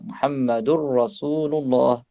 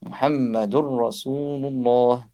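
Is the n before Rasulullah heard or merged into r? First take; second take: merged; merged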